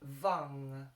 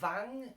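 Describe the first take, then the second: First: The vowel sits between U and A. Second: The vowel sounds like an A. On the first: The speaker calls it right. "but somewhere in between" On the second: The speaker calls it wrong. "or vang as with an A"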